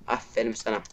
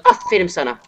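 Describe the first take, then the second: First: Soft, sour "Aferin sana" muttered; real resigned bitterness; quiet sarcasm. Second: Loud, bitter "Aferin sana" shouted; real angry mock praise; furious sarcasm. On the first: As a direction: drop the praise dry and defeated. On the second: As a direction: fling the "Aferin" as an insult. Sarcastic praise while raging. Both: Real, not acted.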